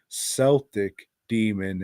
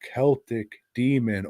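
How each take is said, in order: First: Celtic is said the way Bostonians say it. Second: Celtic is said the standard, non-Boston way.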